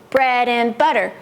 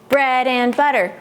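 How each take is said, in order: Both takes have the same delivery.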